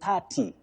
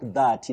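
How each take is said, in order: First: It begins with a voiceless th sound. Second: It begins with a voiced th sound. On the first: The speaker calls it right. "you take the sounding th, just like in thin" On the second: The speaker calls it wrong.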